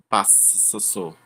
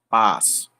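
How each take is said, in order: First: The S sound is lengthened or doubled. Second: A single short S sound is heard. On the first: The speaker calls it wrong. "nem passo" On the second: The speaker calls it right. "é passo. Tem dois S, mas só traz um som"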